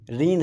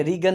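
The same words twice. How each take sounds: First: रीन with a silent g, one syllable; रीन, a short falling word; right reading. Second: रीगन with the g sounded; mock mistake रीगन, two syllables; रीगन said the wrong way, hard g; wrong reading. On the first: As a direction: correct रीन, no g. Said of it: "रीन है". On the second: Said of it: "अब इसमें रीगन नहीं है". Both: Shown as a demonstration.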